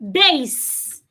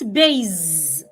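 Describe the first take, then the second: First: The word ends with a hissing S sound. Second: The word ends with a buzzing Z sound. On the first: The speaker calls it right. "The S does not change to a Z" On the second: The speaker calls it wrong. "not base"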